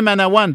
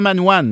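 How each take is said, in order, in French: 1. Le nom se dit avec trois syllabes pleines. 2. Le nom se dit avec seulement deux syllabes. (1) "On dit bien Manawan" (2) "pas Manwan"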